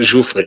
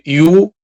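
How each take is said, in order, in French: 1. Le nom commence par un 'j' doux. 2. Le nom commence par un son 'y'. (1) "le village s'appelle Joufré" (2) "Le J, ça vient du I. Donc, pour moi, c'est le you"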